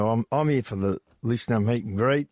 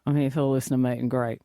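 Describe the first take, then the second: First: A touch more Australian accent; extra Aussie. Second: Put-on quick, mumbly older man, lightly done; mumbly older bloke. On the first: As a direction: lean lightly into the Australian accent. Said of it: "He added a little extra Aussie". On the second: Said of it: "a little bit mumbly like". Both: Shown as a demonstration.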